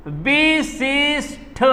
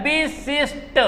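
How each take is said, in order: First: विशिष्ट very slowly, ending in breathed THa; wrong form. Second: विशिष्ट in syllables with soft unaspirated T ending; correct form. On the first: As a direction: break विशिष्ट into "bee-sees-THa". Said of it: "अरे विशिष्ट नहीं होता है". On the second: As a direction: end विशिष्ट softly on a plain Ta. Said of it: "विशिष्ट होता है". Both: Shown as a demonstration.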